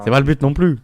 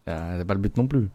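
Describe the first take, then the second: First: Loud emphatic. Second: Said in the usual way. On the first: Real, not acted. Repeated line, louder take.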